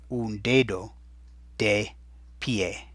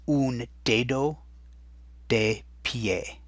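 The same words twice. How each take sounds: First: Said in the usual way. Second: Slow and drawn out, lifting on un; slow teaching model. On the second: Shown as a demonstration. Teacher modelling un dedo slowly for the class. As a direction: model the phrase slowly so students copy it. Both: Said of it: "And that in Spanish is".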